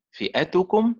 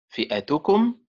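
First: فئتكم lifted higher, stress moved along the word; stress pattern two. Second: فئتكم with a rising end, first syllable pushed; stress pattern one. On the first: Teacher contrasts a second stress pattern, higher. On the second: Teacher shows students a first stress pattern, rising. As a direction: demo فئتكم lifting toward its close. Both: Shown as a demonstration. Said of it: "لنتدرب على أداء الصيغة بطرقها الإيه؟ الأربعة".

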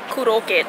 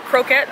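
First: "Kuroket" said the Japanese way, four even syllables ku-ro-ke-t; "Kuroket" in a Japanese accent, stress evened out. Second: Said in the usual way. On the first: Shown as a demonstration. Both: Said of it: "You literally have to just say it in a Japanese accent".

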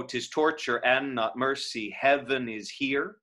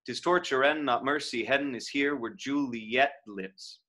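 First: "heaven" given two quick syllables crammed into one beat; slow line, pack both syllables of "heaven" into one beat. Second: "heaven" elided to one syllable "hev'n". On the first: Teacher showing "heaven" as two packed syllables. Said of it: "you just give it two syllables, but you pack 'em in". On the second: Teacher showing "heaven" elided to one syllable. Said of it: "Or you play it as heaven". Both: Shown as a demonstration.

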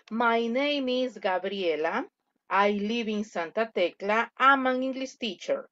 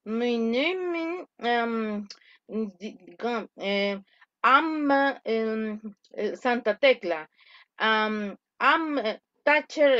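First: Clear, well-articulated model English; correct pronunciation. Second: Mumbled, broken-up English with swallowed words; incorrect articulation. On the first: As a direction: pronounce every word cleanly and distinctly. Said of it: "Pronunciación correcta". (pronunciación correcta, bien articulada) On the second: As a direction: mumble and stumble, barely forming the words. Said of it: "Articular incorrectamente es esto". (articulación incorrecta, entre dientes y balbuceando) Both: Shown as a demonstration.

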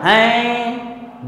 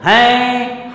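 First: हैं held very long, over two beats; हैं drawn out, three-beat vowel; prolonged vowel. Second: हैं held long, over two beats; हैं drawn out as a pluta vowel; prolonged vowel. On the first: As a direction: stretch हैं out slowly. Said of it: "दो मात्रा से ज़्यादा का समय लगा". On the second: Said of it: "हैं को हमने दो मात्रा से अधिक का समय लग गया". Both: Shown as a demonstration.

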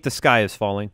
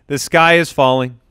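First: Mock doom. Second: Said in the usual way. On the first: Shown as a demonstration.

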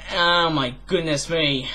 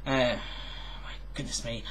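First: Slow, stretched-out sigh of the words; a slow, long-suffering oh my goodness me; drawn-out dismay. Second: Breathless whisper, much softer; a hushed, whispered my goodness me; whispered dismay. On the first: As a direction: drag out the Oh in mock despair. Dismayed aside repeated aloud. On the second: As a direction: whisper it under your breath in mock despair. Dismayed aside to himself. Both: Acted.

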